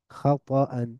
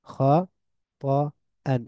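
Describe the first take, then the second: First: Said in the usual way. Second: খাতাআন very slow, split kha, ta, an; long pauses between the syllables of খাতাআন. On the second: Shown as a demonstration. Teacher breaks word into syllables. (ভেঙে ভেঙে খাতাআন)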